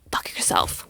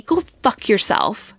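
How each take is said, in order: First: Slow, hushed, venomous whisper; whispered go fuck yourself. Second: Said in the usual way. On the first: Retold or imitated. Telling the lying guy off, in a slow cold whisper. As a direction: breathe it out slowly, no voice.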